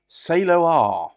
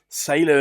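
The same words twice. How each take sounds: First: It is pronounced the Japanese way. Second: It is pronounced like the English word sailor. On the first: The speaker calls it right. "it's another one of these Japanese pronunciations" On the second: The speaker calls it wrong. "sailor as in a ship"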